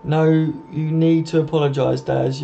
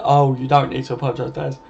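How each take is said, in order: First: Said in the usual way. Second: DON'T held long in the correction; stress on DON'T. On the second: Real, not acted. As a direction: lean on "don't", stretching it out. Corrects his line, stressing don't.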